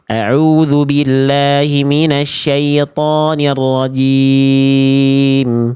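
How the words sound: It is recited with clear, full articulation.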